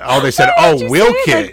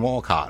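First: The first syllable sounds like 'will'. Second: The first syllable sounds like 'wall'. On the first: "They said, Wilkit" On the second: "And I called it Wolcott"

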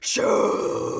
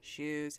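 First: It is said angrily and loudly. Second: It is said sweetly and patiently.

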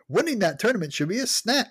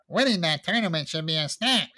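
First: It is read in the narrator's own voice. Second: It is read in a put-on voice for Billy.

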